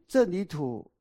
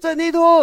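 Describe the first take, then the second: First: The name is called at normal volume. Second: The name is called somewhat loudly. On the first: "老师点名郑李土" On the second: "大声一点"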